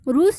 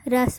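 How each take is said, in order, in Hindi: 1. स्वर एक लंबी 'oo' ध्वनि है। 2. स्वर एक छोटी 'uh' ध्वनि है। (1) "रूस न पढ़ते हुए" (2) "रस पढ़ेंगे"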